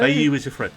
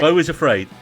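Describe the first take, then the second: First: The first word is two syllables, like 'bayou'. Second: The first word is one syllable, like 'bo'. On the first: The speaker calls it wrong. "I was saying Bayou" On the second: The speaker calls it right. "It's pronounced Beau"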